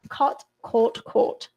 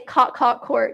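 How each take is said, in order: First: It is said in an RP accent. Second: It is said in a US accent.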